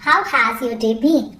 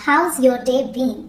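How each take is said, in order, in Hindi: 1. 'How has' दो पूरे शब्दों की तरह बोला जाता है। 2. 'How has' एक अक्षर में छोटा होकर 'how's' बन जाता है।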